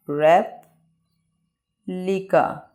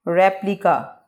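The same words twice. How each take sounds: First: replica as rep, long pause, lika; very slow two-part replica; broken into syllables. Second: Said in the usual way. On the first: Shown as a demonstration. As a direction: leave a long gap after rep in replica. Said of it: "word को रुक रुक के बयान करना". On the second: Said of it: "इसको pronunciate कर लेते हैं".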